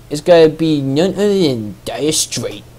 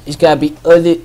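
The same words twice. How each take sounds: First: Put-on hammy Boston accent announcer. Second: Mock Boston accent, loose. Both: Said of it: "I'm trying to put on a Boston accent now".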